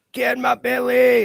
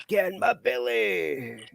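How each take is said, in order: First: Much higher, loud, slow greedy Scottish growl on belly; Fat Bastard impression. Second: Higher, softer and very slow greedy Scottish croon; Fat Bastard impression. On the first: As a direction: bellow the catchphrase at a friend munching a burger. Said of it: "That's one for Dan". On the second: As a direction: draw the line out quietly with a gloating relish. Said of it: "Austin Powers, that fat bastard".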